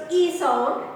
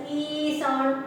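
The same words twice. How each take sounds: First: "E" kept brief, without lengthening; brief "E" for the undotted symbol; short E sound. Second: "E" stretched into a long ee; lengthened "E" for the two dots; long E sound. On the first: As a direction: say "E" as a short vowel. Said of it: "It is without any dot". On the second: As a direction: hold the "E" well before "sound". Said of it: "because you are giving two dots". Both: Shown as a demonstration.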